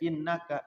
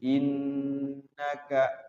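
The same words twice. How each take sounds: First: The nasal n is cut short, not held. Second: The nasal n is held for several beats. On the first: The speaker calls it wrong. "jangan sampai innaka, jangan begitu" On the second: The speaker calls it right. "nunnya digunnahkan, ditahan. Dua sampai tiga ketukan"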